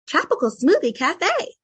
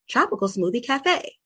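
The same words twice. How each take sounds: First: A higher, lighter voice resonating in the head. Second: A natural everyday voice resonating in the chest. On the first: "if I was gonna say Tropical Smoothie Cafe and I was gonna use head voice" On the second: "using chest voice"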